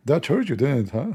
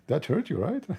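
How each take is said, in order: First: High, loud gloating jab; mocking taunt. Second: High, quieter teasing jab; softer taunt. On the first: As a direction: rub it in with a grin. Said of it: "he said to the German chancellor". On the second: Retold or imitated. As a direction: lighter mocking poke. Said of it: "he said to him".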